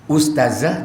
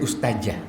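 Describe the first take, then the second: First: The middle consonant is a z sound. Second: The middle consonant is a j sound. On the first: The speaker calls it right. "yang betul itu adalah ustazah" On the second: The speaker calls it wrong. "za itu J jadinya"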